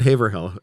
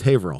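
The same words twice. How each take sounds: First: The name is said the way outsiders say it. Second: The name is said the way locals say it. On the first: The speaker isn't from the area. The speaker calls it wrong. "It's not Haverhill" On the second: The speaker is from the area. The speaker calls it right. "it's Haverhill"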